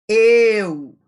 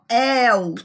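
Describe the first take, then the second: First: The diphthong starts with a closed e vowel. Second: The diphthong starts with an open e vowel. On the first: The speaker calls it wrong. "e não" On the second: The speaker calls it right. "Aberto porque o som sai assim"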